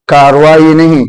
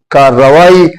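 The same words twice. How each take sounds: First: کاروائی said with one quick r; wrong version. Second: کارروائی with the r pulled long and doubled; correct doubled r. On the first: Teacher to students, contrasting the wrong form. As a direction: say کاروائی with a single r to show the mistake. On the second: Teacher to students, giving the correct form. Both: Shown as a demonstration. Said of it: "رے کو ہم کھینچ کے دو مرتبہ پڑھیں گے".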